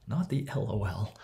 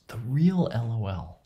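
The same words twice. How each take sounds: First: "not" stressed, the rest said lightly; "not" marked against the real kind. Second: "real" pushed louder and slower; "real" emphasised, set against the fake kind; stress on real. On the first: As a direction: dismiss the fake one with "not". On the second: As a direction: lean into "real" as the genuine one. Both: Shown as a demonstration.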